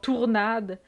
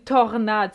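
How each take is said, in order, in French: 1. La première syllabe sonne 'tour'. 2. La première syllabe sonne 'tor'. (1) "le monde qui prononce mal les mots très simples" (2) "C'est une tornade"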